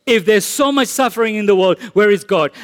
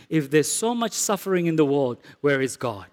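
First: Said in the usual way. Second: Quoted softly, lower and quieter; hushed doubting question. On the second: Retold or imitated. Preacher voicing a doubter to the congregation, hushed. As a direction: murmur the doubter's question under your breath. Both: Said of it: "a statement like this".

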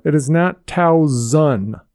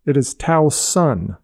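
First: Towson said with a z sound, Towzon; slow, say Towson as Towzon; wrong pronunciation. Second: Towson said with a clear s, Tow-sun; slow, say Towson with a crisp s; correct pronunciation. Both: Shown as a demonstration. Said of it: "for every sports announcer out there".

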